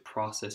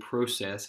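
First: It is said the American way. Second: It is said the Canadian way. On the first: "I'm used to process in the States" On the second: "Calgary say process"

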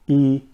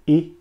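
First: The vowel is long. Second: The vowel is short.

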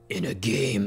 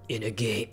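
First: It is said in a dramatic movie-trailer voice. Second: It is said in his normal voice.

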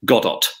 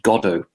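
First: The final T is clearly pronounced. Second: The final T is silent.

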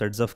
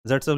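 First: The name begins with an 's' sound. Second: The name begins with a 'z' sound. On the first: This is how the name is pronounced. "Pronounce सेट्सफ करते हैं" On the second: This is how the name is written. "जेट्सफ लिखते हैं"

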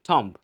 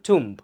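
First: The vowel sounds like 'o'. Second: The vowel sounds like 'oo'. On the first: The speaker calls it wrong. "But আমরা প্রায় বলি কি থম্ব" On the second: The speaker calls it right. "Real উচ্চারণ হচ্ছে টুম্ব"

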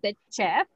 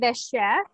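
First: Chef begins with a hard ch sound. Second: Chef begins with a soft sh sound. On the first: The speaker calls it wrong. "and not the chef" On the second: The speaker calls it right. "we say the chef"

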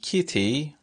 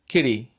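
First: The middle consonant is a full t sound. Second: The middle consonant is a quick voiced tap. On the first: "instead of saying kitty" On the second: "it is a voice tap, just a tap"

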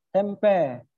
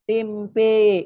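First: The final vowel falls between a and e. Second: The final vowel is a full e sound. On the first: This is the Sundanese way of saying it. "bukan tempe tapi tempe, eh, majareha dengan taklil" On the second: This is the Javanese way of saying it. "Tempe menurut lisan Jawa, cara pengucapannya dengan imalah"

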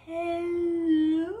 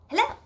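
First: It is said slowly. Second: It is said fast.

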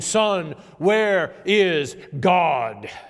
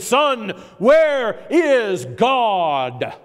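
First: It is said more sternly and louder. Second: It is said sternest, with the loudest voice.

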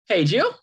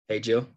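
First: It rises like a question. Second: It is low, slow and settled.

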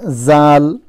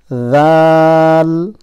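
First: The first sound is a plain z. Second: The first sound is a voiced th. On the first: The speaker calls it wrong. "not zal" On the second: The speaker calls it right. "Tip of the tongue touching the upper front two teeth"

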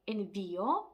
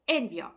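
First: The stress falls on the 'i', splitting 'io'. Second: The stress falls on the first syllable 'en'. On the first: The speaker calls it right. "наголос у нас падає на «і», розбиваючи дифтонг" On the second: The speaker calls it wrong. "наголос мав би впасти на попередній склад"

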